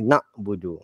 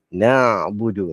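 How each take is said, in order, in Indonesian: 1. Bunyi tenggorokan setelah na tidak dilepaskan. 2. Bunyi tenggorokan setelah na jelas bersuara. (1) "Dia tak boleh na'budu. Ha, salah segi sebutan dia" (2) "ain tu kena lepaskan suara dia ... macam tu sebutan yang betul"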